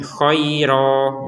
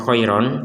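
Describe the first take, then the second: First: The word ends on a long vowel, no n. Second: The word ends with a clear n sound. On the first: The speaker calls it right. "tapi kita membacanya khairo" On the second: The speaker calls it wrong. "Kita barusan tidak membaca khairon"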